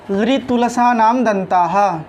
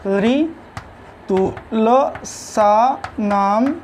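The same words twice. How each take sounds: First: Said in the usual way. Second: Very slow ऋतुलसानाम, each syllable held apart, then दंताः. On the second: Shown as a demonstration. Teacher giving students the Sanskrit rule for dentals, slowly syllable by syllable. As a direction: spell out ऋतुलसानाम दंताः in long separate pieces.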